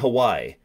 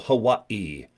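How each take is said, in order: First: The vowels run together without a break. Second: There is a short break between the vowels. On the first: The speaker calls it wrong. "You don't say Hawaii" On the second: The speaker calls it right. "You have to go Hawaii. ... They pause a lot"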